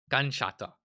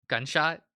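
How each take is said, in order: First: Gunshot. settled with a falling statement tune. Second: Gunshot? asked with a rising question tune. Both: Shown as a demonstration.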